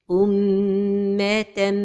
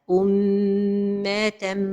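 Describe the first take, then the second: No difference in how they are said.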